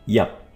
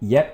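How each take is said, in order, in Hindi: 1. यह स्वर cup के u जैसा सुनाई देता है। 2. यह स्वर bet के e जैसा सुनाई देता है।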